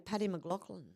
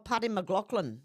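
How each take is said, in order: First: The name is said with a plain accent. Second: The name is said with an exaggerated Irish accent. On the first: This is an ordinary way of saying the name. The speaker calls it right. "we just say" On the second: The name is styled like a native speaker's. The speaker calls it wrong. "We don't go"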